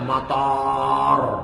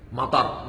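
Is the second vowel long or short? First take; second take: long; short. First: The second vowel is long. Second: The second vowel is short. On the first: It means airport. "panjang dibaca matar, airport artinya" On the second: It means rain. "hujan artinya"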